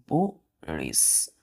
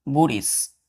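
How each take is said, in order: First: बुरिस very slowly and low, split "boo, rish"; syllable by syllable. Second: Said in the usual way. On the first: Shown as a demonstration. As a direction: pause in the middle of बुरिस, voice dropping. Teacher breaks word into syllables.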